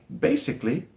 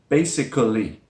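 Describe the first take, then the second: First: The word is said with three syllables. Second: The word is said with four syllables. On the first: "the schwa sound is dropped. So it sounds like basically" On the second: "this word looks like basically, the way it's written"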